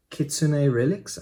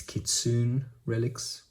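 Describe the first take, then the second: First: "Kitsune" as kit-soo-NAY, with the final e sounded; three-syllable pronunciation. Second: "Kitsune" as kit-SOON, with a silent final e; slower, tentative "Kitsune" in two syllables, rhyming with "soon"; alternative pronunciation. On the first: Collector naming the shop he ordered from, "Kitsune" pronounced kit-soo-nay. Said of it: "I think it's pronounced Kitsune". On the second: Collector guessing at the shop's name, "Kitsune" pronounced kit-soon. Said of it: "Forgive me if that pronunciation is wrong". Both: Shown as a demonstration.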